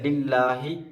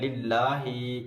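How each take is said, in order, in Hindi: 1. अंतिम स्वर छोटा है। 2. अंतिम स्वर लंबा खींचा हुआ है।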